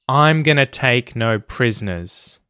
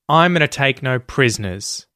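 First: It is said more slowly. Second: It is said at normal speed.

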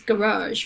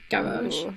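First: It is said in an American accent. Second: It is said in a posh British accent. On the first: "the US is garage, right, with the second syllable stress" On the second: "I perceive it as like a posh British pronunciation"

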